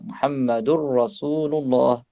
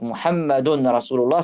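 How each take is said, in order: First: The n merges into a doubled r sound. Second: The n sound is heard before the r. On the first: "ça devient avec la règle de tajwid" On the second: "c'est Muhammadun"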